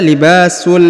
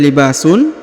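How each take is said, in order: First: The n merges into l, ending with l. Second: The word ends with a clear n sound. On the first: The speaker calls it right. "dibaca libasul. Langsung sambung masuk ke huruf lam" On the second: The speaker calls it wrong. "tidak dibaca libasun"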